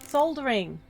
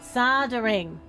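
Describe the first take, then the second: First: The word is pronounced the way it is spelled. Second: The word is pronounced differently from its spelling. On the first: The speaker calls it right. "That's how you say it, isn't it?" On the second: The speaker calls it wrong. "You don't say it like that"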